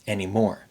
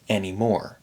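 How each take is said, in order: Both takes have the same delivery.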